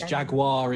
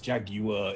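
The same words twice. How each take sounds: First: It is said with an American pronunciation. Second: It is said with a British pronunciation. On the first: "it's jaguar in in American English" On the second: "but it's jaguar in British"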